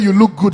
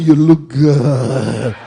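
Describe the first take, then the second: First: It is said in a plain, ordinary voice. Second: It is said in a low, seductive voice. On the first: A friendly, innocent compliment. "Instead of saying you look good" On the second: The speaker is making a romantic advance. "bedroom voice"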